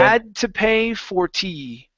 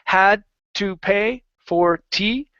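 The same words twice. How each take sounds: First: The words are linked smoothly without breaks. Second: The words are said separately and choppily. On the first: The speaker calls it right. "connect them together. Nice and smooth" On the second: The speaker calls it wrong. "Instead of saying"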